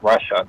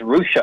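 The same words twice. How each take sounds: First: The name is said with a nonlocal pronunciation. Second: The name is said with its local pronunciation. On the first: The speaker calls it wrong. "not Russia" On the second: The speaker calls it right. "I think it's Russia, Ohio"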